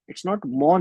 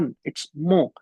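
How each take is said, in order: First: Mon said with a clear final n; the n fully sounded; wrong mon. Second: Mo said with a nasal vowel and no n; French nasal mon. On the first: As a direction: mon read as English mon. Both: Shown as a demonstration.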